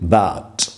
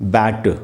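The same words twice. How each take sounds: First: The final t has a slight puff of air. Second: The final t has no puff of air. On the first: The speaker calls it right. "कम aspiration है" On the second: The speaker calls it wrong. "इसको ऐसे नहीं बोलना है बैट"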